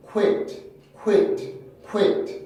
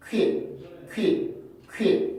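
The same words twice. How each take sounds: First: "quit" as ku-IT with a released t; English sequential pronunciation. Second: "quit" as one merged kwi, stopped without a released t; Korean-style pronunciation. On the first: Teacher repeats the English model, glided syllable with final t. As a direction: glide through w in "quit" and land on the vowel, crisp t. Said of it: "그 다음에 이로 강세를 밀어내기 때문에". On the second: Teacher shows the Korean habit, compact syllable with stopped ending. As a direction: say "quit" like Korean 퀻, sounds all at once. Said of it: "한 번에 발음을 하기 때문에". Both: Shown as a demonstration.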